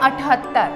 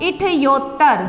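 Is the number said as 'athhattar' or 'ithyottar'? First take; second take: athhattar; ithyottar. First: It is said as 'athhattar', ending in 'hattar'. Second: It is said as 'ithyottar', ending in 'yottar'. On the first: The speaker calls it right. "ये होता है अठहत्तर" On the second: The speaker calls it wrong. "जो कि गलत है"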